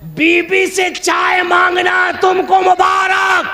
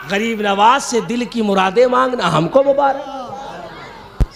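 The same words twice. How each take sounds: First: High, slow, drawn-out declamation; ringing shout. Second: Slow, measured delivery at normal pitch; settled declamation. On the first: Preacher handing wife's tea to the opponent, high ringing shout. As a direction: call it out high and stretched. Punchline contrast, first half shouted. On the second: Preacher claiming the saint's blessings for us, slow settled delivery. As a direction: bring it down and stretch it out. Punchline contrast, second half lowered. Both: Acted.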